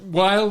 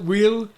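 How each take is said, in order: First: The name rhymes with smile. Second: The name does not rhyme with smile.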